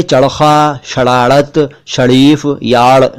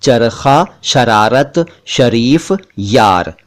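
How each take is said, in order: First: चरखा, शरारत, शरीफ, यार with each r made a retroflex flap ड़; wrong ड़ for र. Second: चरखा, शरारत, शरीफ, यार with trilled r; correct rolled र. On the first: Teacher showing the mistake, ड़ for र in चरखा, शरारत, शरीफ, यार. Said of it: "नहीं है". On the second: Teacher correcting the mistake, trilled r in चरखा, शरारत, शरीफ, यार. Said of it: "ये हैं". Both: Shown as a demonstration.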